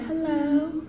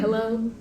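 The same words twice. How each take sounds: First: It is said in a sweet, put-on voice. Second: It is said in a plain, normal voice.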